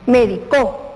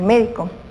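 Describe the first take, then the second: First: The stress is on the last syllable. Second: The stress is on the first syllable. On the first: He or she medicated. "la tilde o el acento va en la última sílaba" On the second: A doctor. "cuando lleva la tilde acá y es una palabra esdrújula"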